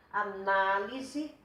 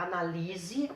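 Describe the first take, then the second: First: Análise with NA drawn out and stressed; stress on second syllable. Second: Analise with LI stressed. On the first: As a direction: hit NA in Análise, slowly. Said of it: "a sílaba tônica de uma palavra". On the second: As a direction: move the stress in analise onto LI. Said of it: "a sílaba tônica tá aqui". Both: Shown as a demonstration.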